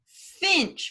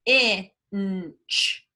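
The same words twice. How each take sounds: First: Said in the usual way. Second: Finch drawn out slowly; stretched blend. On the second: Shown as a demonstration. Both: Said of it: "what you hear [name] blending".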